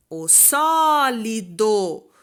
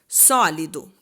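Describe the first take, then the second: First: "sólido" called out loud, SÓ held long, then each syllable apart; slow, loud "sólido", weight on SÓ; calling out stressed syllable. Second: Said in the usual way. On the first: Shown as a demonstration. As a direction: call out "sólido", stretching SÓ and finishing on a full DO. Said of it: "quando eu chamo a palavra". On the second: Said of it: "O do é a última sílaba".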